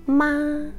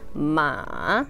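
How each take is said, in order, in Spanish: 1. La sílaba se dice con tono alto y nivel. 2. La sílaba se dice con tono bajo y grave. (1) "En un tono agudo" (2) "en tono grave, como voz muy, muy así, varonil"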